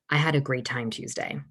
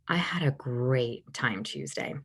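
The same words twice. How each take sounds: First: Every word is said at an even, normal pace. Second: The word "great" is drawn out and slower.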